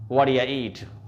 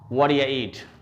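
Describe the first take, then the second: Both takes have the same delivery.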